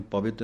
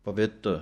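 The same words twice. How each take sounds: First: ਪਵਿੱਤ said the wrong way, quick and clipped; wrong reading demo. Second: ਪਵਿੱਤ read as written, light ending; correct reading. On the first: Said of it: "ਇਹਨੂੰ ਪਵਿੱਤ ਨਹੀਂ ਕਹਿਣਾ". (ਗ਼ਲਤ ਉਚਾਰਣ ਪਵਿੱਤ) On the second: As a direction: model ਪਵਿੱਤ carefully. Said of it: "ਪਵਿੱਤ ਪਾਠ ਪੜ੍ਹਨਾ ਹੈ". (ਸਹੀ ਉਚਾਰਣ ਪਵਿੱਤ) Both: Shown as a demonstration.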